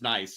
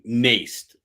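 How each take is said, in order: First: The vowel is not a long A sound. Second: The vowel is a long A sound. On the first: The speaker calls it right. "he says it's nice" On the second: The speaker calls it wrong. "like a long A"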